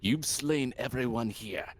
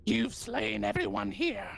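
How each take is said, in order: First: Solemn priest speaking; different priest voice. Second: High goblin voice; squeaky goblin priest. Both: Acted. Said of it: "gonna use a different voice for this".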